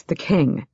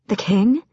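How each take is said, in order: First: "king" falling to a close; "the king" as a settled, falling statement; firm confirmation. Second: "king" lifted in a questioning rise; "The king?" as a surprised, rising query; startled question. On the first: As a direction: confirm it quietly, "king" going down. Confirms it in answer. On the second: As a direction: echo it in disbelief, "king" going up. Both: A narrator's reading.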